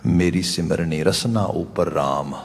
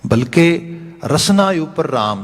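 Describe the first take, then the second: First: Slow, soft recital of ਰਸਨਾ ਉਪਰ ਰਾਮ; a calm scripture quote; quiet verse recital. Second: Rasna punched high and loud, the phrase slow; emphatic preaching on Rasna; stress on Rasna. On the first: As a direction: read the verse gently, Rasna unstressed. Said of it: "ਬਾਬਾ ਕਬੀਰ ਜੀ ਦੇ ਬਚਨ ਨੇ". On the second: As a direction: drive home ਰਸਨਾ ਉਪਰ ਰਾਮ slowly and loudly. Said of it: "ਆਪਾਂ ਸਿਮਰਨਾ ਬਦਲ ਲਿਆ". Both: Shown as a demonstration.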